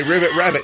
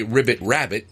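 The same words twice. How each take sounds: First: Laughing ribbit rabbit burp; talking while burping. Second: Ribbit rabbit burped out; talking while burping. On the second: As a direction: say it through a burp. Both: Real, not acted. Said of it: "I'll say".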